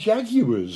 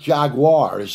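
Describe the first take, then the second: First: It is said with a British pronunciation. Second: It is said with an American pronunciation. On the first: This is the version fewer people in the world know. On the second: This is the version most people in the world know.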